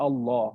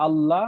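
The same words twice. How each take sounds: First: আল্লাহ with thin, light lam; light Allah. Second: আল্লাহ with thick, full lam; আল্লাহ said with a full, heavy lam; heavy Allah. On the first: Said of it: "আবার অনেক সময় বলি". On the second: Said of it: "একটা হলো যে আমরা অনেকে বলি". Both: Shown as a demonstration.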